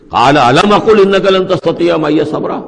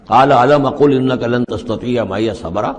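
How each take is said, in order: First: Recited higher and louder, with a scolding edge; mild scolding. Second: Slow Quranic recitation. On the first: Khidr rebuking Moses a second time, louder scolding recitation. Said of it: "ذرا ڈانٹ کے انداز میں کہا". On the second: Khidr's reply recited calmly and evenly. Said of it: "ذرا ڈانٹ کے انداز میں". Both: Shown as a demonstration.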